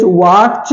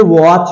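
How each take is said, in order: First: वाच with a T sounded, "waat-ch"; wrong pronunciation. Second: वॉच as "wawch", no separate T; silent T. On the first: Teacher showing the mistake, wrong pronunciation. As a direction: break वाच with a T before CH. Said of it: "वाच नहीं है". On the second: Teacher giving the correct form, silent T. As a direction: let वॉच run straight into CH. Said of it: "ये वॉच है". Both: Shown as a demonstration.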